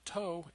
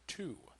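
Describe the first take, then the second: First: The vowel is a long 'oh' sound. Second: The vowel is an 'oo' sound. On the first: The speaker calls it wrong. "This is not actually toe" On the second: The speaker calls it right. "it is to"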